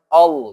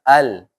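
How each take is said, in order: First: The L is thick and heavy. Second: The L is thin and light. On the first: The speaker calls it wrong. "lamnya jangan jangan tebal, jangan all misalkan" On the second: The speaker calls it right. "biasa ya jangan jangan ditebalkan, tapi biasa al"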